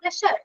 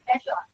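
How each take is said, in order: First: The middle consonant is a plain 'sh' sound. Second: The middle consonant is a voiced 'zh' sound. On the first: The speaker calls it wrong. "നമ്മളെങ്ങനെയാ പ്ലഷർ എന്നാ വായിച്ചിരിക്കുന്നത്, അങ്ങനെയില്ല" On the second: The speaker calls it right. "My pleasure എന്ന് പറയണം"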